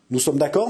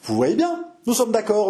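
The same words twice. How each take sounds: First: Said in the usual way. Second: Composure. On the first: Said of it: "n'est-ce pas". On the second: A narrator's reading. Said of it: "avec un grand sang-froid".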